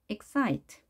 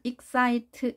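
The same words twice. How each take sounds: First: The second syllable is stressed, the first weak. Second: Both syllables are said at the same pitch. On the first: The speaker calls it right. "excite 이런 산 모양이 만들어집니다" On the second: The speaker calls it wrong. "우리말식으로 한다면 excite 이렇게 똑같은 높이로"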